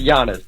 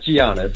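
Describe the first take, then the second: First: The name begins with a Y sound. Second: The name begins with a J sound. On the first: The speaker calls it right. "It's like Y A N N I S" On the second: The speaker calls it wrong. "It's not Giannis"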